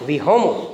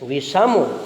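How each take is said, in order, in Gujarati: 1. વચ્ચેનો વ્યંજન h અવાજ છે. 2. વચ્ચેનો વ્યંજન s અવાજ છે. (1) "શનો હ ઉચ્ચાર થાય" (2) "શનો હ ઉચ્ચાર થાય"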